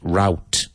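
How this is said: The word is said in the American pronunciation.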